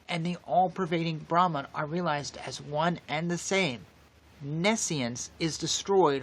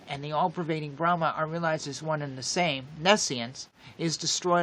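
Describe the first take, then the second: First: A clear break comes before "nescience". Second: It runs straight on into "nescience".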